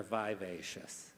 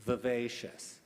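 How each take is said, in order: First: "vivacious" with a long i in the first syllable; alternate pronunciation. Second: "Vivacious" with a short, reduced first vowel; first pronunciation variant. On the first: Bee pronouncer offering the alternative, "vivacious" as vy-VAY-shus. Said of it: "Vivacious or". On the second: Bee pronouncer offering a word, "Vivacious" as vi-VAY-shus. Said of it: "or vivacious". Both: Shown as a demonstration.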